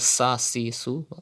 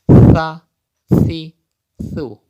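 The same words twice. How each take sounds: First: The s sounds are said with a whistle. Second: The s sounds are said without a whistle. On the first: The speaker calls it wrong. "Don't read as" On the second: The speaker calls it right. "Without whistle"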